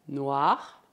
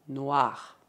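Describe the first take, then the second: Both takes have the same delivery.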